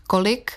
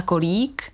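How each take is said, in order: First: "kolik" with a short i; "kolik" said with its last vowel short. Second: "kolík" with a long í; "kolík" said with its last vowel held long. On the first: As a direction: keep the i in "kolik" brief. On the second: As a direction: draw out the í in "kolík". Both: Shown as a demonstration. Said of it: "tuhle délku nemá".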